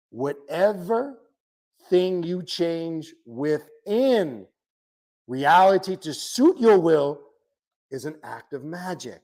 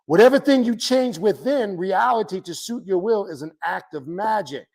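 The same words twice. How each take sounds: First: Slowly, with long pauses between phrases; slow, deliberate emphasis. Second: Said in the usual way. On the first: Real, not acted. Teacher repeats a definition of magic to followers, slow and deliberate. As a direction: spell it out phrase by phrase.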